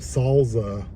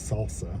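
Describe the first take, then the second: First: The middle consonant is a Z sound. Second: The middle consonant is an S sound. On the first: The speaker calls it wrong. "salsa with a Z" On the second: The speaker calls it right. "instead of salsa"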